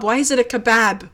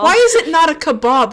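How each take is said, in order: First: "kebab" ending with a short A as in "cat". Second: "kebab" ending with an "ah" vowel, like "kuh-BOB"; open A in kebab. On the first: Challenging a co-host's vowels, "kebab" said as "kuh-BAB". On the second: Challenging a co-host's vowels, "kebab" said as "kuh-BOB". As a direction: say "kebab" with a broad back A. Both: Shown as a demonstration. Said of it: "Why does the A go like that?".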